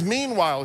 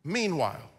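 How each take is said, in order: First: Meanwhile said firmly, falling; firmer key word. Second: Meanwhile said softly, falling; hushed key word. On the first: Preacher restates Meanwhile to the congregation, firmer. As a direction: announce Meanwhile as a pivot. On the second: Preacher softly lands the word meanwhile, hushed. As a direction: lay down the word meanwhile quietly. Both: Shown as a demonstration. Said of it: "drops this transitional word".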